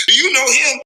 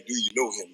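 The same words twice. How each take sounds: First: High, louder mimicked question; nosy acquaintance. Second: Low, soft repeat of the question; dismissive requote. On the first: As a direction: pipe up as someone pestering him. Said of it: "how many times I hear that". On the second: Retold or imitated. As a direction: toss the question back under your breath. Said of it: "I be like".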